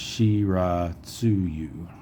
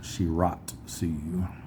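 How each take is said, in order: First: The 'tsu' is a full separate syllable. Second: The 'tsu' is run into the next sound. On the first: The speaker calls it right. "So that T S U is actually a syllable. So it's Shiratsuyu" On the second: The speaker calls it wrong. "not Shiratsuyu"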